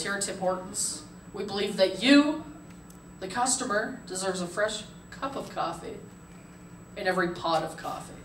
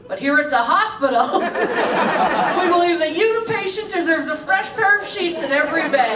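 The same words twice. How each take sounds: First: Soft, measured radio commercial voice; hushed mock-earnest commercial announcer. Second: Loud, high mock ad slogan; raised-voice spoof of a company promise; parody ad announcer. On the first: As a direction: imitate a sincere ad read, pausing between phrases. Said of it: "Guy comes on the radio and he goes". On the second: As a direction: proclaim it as an outraged parody commercial. Parodies the ad as a hospital.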